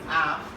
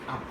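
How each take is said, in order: First: The word has its full vowel. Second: The word has a reduced vowel. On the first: "Strong is" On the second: "weak is"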